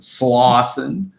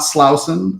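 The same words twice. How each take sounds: First: The first syllable sounds like slaw. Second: The first syllable does not sound like slaw. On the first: The speaker calls it right. "like the food, coleslaw" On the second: The speaker calls it wrong. "Not Slauson"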